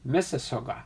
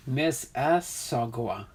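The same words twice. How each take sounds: First: "Mississauga" run together as one quick word; quick, joined-up "Mississauga"; said fast. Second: "Miss Mississauga" slowly, in separate syllables; careful, spaced-out "Miss Mississauga"; broken down slowly. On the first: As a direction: say "Mississauga" briskly, without breaks. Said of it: "say that really fast". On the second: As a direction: sound out "Miss Mississauga" part by part. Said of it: "you gotta break it down". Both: Shown as a demonstration.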